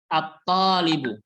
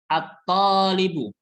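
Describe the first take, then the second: First: The 'l' is silent, going straight into 't'. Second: The same.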